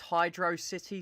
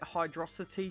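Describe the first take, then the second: First: It is said as two words, hydro city. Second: It is said to rhyme with velocity. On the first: "some people call this Hydro City Zone" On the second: "like Velocity and Hydro"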